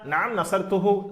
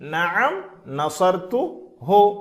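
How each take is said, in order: First: The ending hu runs straight on from the verb. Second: The ending hu is split off from the verb. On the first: "ஈஸியாக சொல்லிவிடலாம்" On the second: "இதை நாம் புரிவதற்காக தனித்தனியாக பிரித்து சொல்கிறோம்"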